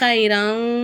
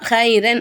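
First: The final n is hidden with a nasal hum. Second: The final n is pronounced clearly and fully. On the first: The speaker calls it right. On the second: The speaker calls it wrong.

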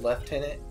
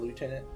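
First: It is said in a British accent. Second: It is said in an American accent. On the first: The speaker calls it right. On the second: The speaker calls it wrong.

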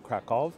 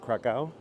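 First: The name is pronounced with Polish sounds. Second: The name is pronounced with English sounds. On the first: "if I were to pronounce it in the proper Polish" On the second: "I'm going to stick to my English pronunciation"

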